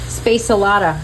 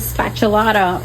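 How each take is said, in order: First: The first part sounds like 'space'. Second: The first part sounds like 'spat'. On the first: The speaker calls it right. "I think it's space" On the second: The speaker calls it wrong. "not spat"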